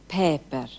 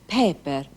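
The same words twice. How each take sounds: The two takes are said the same way.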